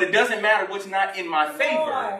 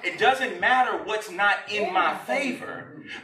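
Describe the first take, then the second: First: The phrase is spoken quickly. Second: The phrase is spoken slowly. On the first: The speaker calls it wrong. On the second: The speaker calls it right.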